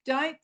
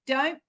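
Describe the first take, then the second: No difference in how they are said.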